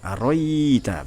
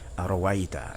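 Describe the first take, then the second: First: The second hamza becomes a long drawn-out vowel. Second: The second hamza is softened, sounding like a w. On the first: "Diganti alif, sebenarnya ada redaksi dengan mat yang panjang" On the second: "Bitashili hamzah tsaniyah"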